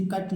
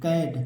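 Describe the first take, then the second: First: कट with short "uh", like English "cut"; wrong reading कट, short central vowel; mispronounced short vowel. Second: कैट with open "ae", like English "cat"; AI vowel in कैट. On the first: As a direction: say कट to rhyme with "but". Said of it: "इसे कट नहीं पढ़ेंगे". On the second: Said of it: "ए का ऐ पढ़ेंगे". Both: Shown as a demonstration.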